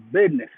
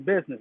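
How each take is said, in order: First: The middle has a d sound, like bidness. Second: The middle has a z sound, said normally. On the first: The speaker calls it right. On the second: The speaker calls it wrong.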